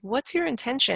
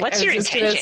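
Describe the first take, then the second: First: The question is asked in a curious tone. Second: The question is asked in a snarky tone. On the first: The asker genuinely wants to understand. The speaker calls it right. "source a little bit of curiosity" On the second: The asker is hostile and dismissive. The speaker calls it wrong. "you can't say it in a snarky way"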